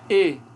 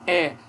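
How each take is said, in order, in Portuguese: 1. A vogal é pronunciada fechada, com a língua mais alta. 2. A vogal é pronunciada aberta, com a língua mais baixa. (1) "aqui o E é fechado" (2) "Aqui é aberto"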